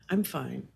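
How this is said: The voice sounds flat and uncaring. The speaker is shut down and doesn't really care. "There's a dorsal, you know, don't really care going on"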